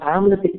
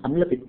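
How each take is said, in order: First: The first vowel is drawn out long. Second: The first vowel is kept short. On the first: The speaker calls it wrong. "हम आम्ल पित्त कहते हैं" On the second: The speaker calls it right. "सही उच्चारण अम्ल पित्त है"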